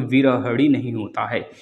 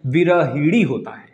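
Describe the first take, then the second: First: विरहड़ी with a flapped ड़ी; वि-र-ह-ड़ी with a hard ड़ sound; wrong form. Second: विरहिणी said slowly with a clear णी; slow teacher's model of विरहिणी; correct form. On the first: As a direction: quote the mistaken विरहड़ी. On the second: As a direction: spell out विरहिणी, each syllable drawn out. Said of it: "कहाँ गलती है?". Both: Shown as a demonstration.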